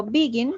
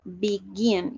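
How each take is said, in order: First: Teacher shows the wrong stress, BE-gin; wrong stress on begin. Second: Drawn out, land on GIN; right stress on begin. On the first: Teacher contrasts begin for students, wrong stress first. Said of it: "Yo no digo begin". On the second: Teacher models the right stress, be-GIN, slowly. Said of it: "la acentuación es al final". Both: Shown as a demonstration.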